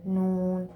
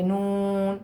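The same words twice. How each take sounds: First: Said in the usual way. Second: The wrong way: نون through the nose; wrong nasal noon. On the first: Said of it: "نون کو ہم ایسے پڑھیں گے". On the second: Shown as a demonstration. Teacher showing pupils the wrong nasal نون. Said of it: "ایسے نہیں پڑھیں گے".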